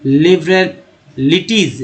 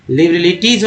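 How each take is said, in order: First: लिबरलिटीज slowly, parted as लिबरल-लिटीज; slow pronunciation. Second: Said in the usual way. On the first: Shown as a demonstration. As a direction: pause inside लिबरलिटीज before लिटीज. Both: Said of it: "words पे ध्यान देना होगा".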